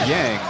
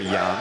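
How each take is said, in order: First: The name is said with an English pronunciation. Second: The name is said with a Mandarin pronunciation. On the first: "Y A N G is to the English speakers, for the most part" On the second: "In Taiwan, we pronounce that his surname"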